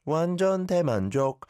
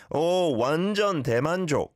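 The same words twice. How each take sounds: First: High-pitched, slightly unnatural tune on 완전 대만족; slightly unnatural intonation. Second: High, swooping natural tune on 완전 대만족; natural intonation. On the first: Retold or imitated. Host repeats a caller's attempt, slightly unnatural intonation on 완전 대만족. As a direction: echo a learner's raised tune on 완전 대만족. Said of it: "The intonation is a little unnatural". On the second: Shown as a demonstration. Host models it for a caller, natural intonation on 완전 대만족. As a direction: lead with "Oh" and flow through 완전 대만족. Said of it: "That's how I would say it".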